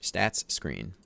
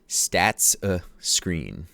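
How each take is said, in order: First: The two words run together quickly without a break. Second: A clear stop separates the two words. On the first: "If you say it fast, they sound the same" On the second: "You need a glottal stop"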